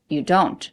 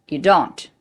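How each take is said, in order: No difference in how they are said.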